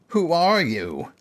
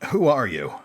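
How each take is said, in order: First: It is said in an obnoxious mocking voice. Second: It is said in a plain voice.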